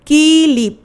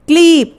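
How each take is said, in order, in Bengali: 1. k ও l-এর মাঝে একটি i স্বরধ্বনি ঢোকানো হয়। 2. এটি k-l ব্যঞ্জনগুচ্ছ দিয়ে শুরু, মাঝে কোনো স্বরধ্বনি নেই। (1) "ক এর পরে একটা ই ধ্বনি আসছে" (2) "আগে ছিল ক্লিপ"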